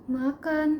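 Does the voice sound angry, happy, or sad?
sad. It sounds low in pitch and trembling. The speaker is feeling sorrowful. "kalau sedih itu biasanya nadanya lebih rendah dan terdengar be- bergetar"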